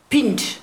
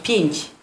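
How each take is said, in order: First: The soft endings come out hard, German-like. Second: The word has soft Polish sounds at the end. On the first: The speaker calls it wrong. "Albo pinch" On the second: The speaker calls it right. "To miało być pięć"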